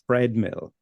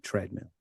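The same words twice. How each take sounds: First: The word begins with a 'th' sound. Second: The word begins with a plain 't' sound. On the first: The speaker calls it wrong. "I end up putting them in places where they're not supposed to be ... which is not right" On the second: The speaker calls it right. "It should be treadmill"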